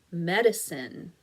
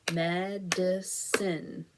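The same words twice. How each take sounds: First: Said in the usual way. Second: Medicine said slowly as Med-i-cine; three slow claps through Medicine; clapped syllables. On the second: Shown as a demonstration. Teacher claps out Medicine for the class, slow and separated. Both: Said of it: "Let's clap it out".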